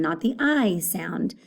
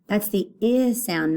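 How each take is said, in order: First: I said long like "eye", slow. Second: I said short like "ih". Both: Shown as a demonstration.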